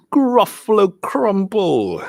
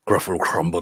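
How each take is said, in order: First: High, drawn-out storybook threat; menacing mouse. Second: Lightly voiced, low-pitched Gruffalo echo; daunted Gruffalo. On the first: Acted. Mouse threatening the Gruffalo with its favorite food, slow menace. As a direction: announce the dish slowly and grandly, pitched up. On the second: Gruffalo echoing the mouse's threat, mildly daunted. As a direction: repeat it lower, a touch daunted.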